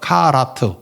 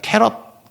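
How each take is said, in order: First: It is said as kah-rah-teu, read letter by letter. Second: It is said as kae-reot, the English way. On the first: This is the original Hebrew form. "이걸 그대로 읽으면 카라트. 히브리어예요" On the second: This is the form the word took in English. "영어로 와서 발음을 캐럿이라 그래"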